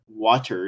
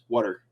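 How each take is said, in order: First: The middle consonant is a clear T sound. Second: The middle consonant sounds like a D. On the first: "you don't call it water" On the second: "it's water"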